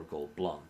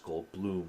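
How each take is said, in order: First: "Goldblum" said as Gold-blum, with a short uh; second pronunciation. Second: "Goldblum" said as Gold-bloom, with a long oo; first pronunciation. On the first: Quoting Jeff Goldblum's comic question, "Goldblum" as Gold-blum. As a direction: say "Goldblum" to rhyme with plum. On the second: Quoting Jeff Goldblum's comic question, "Goldblum" as Gold-bloom. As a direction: say "Goldblum" to rhyme with room. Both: Acted. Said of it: "Is my last name pronounced".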